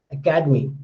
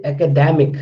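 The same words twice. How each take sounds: First: Academy stressed on the KA; stress on second syllable. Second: Academic stressed on the DA; stress on third syllable. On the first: Teacher showing students word stress, academy stressed on KA. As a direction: say academy with the weight on "cad". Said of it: "here ka". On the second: Teacher contrasting it with academy, academic stressed on DA. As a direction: say academic with the weight on "dem". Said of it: "then da is getting more stress". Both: Shown as a demonstration.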